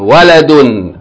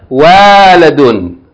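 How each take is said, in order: First: The first two vowels are kept short. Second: The first two vowels are drawn out long. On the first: The speaker calls it right. "Two short vowels" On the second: The speaker calls it wrong. "It's not waladun"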